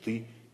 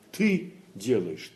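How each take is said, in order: First: The stress falls on the word делаешь. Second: The stress falls on the word ты. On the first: You really are acting and doing the deed. "Делаешь" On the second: You, and no one else, are the one acting. "И там, и там"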